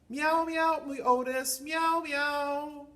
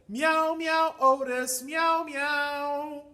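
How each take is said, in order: First: The call is said more quietly. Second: The call is said more loudly.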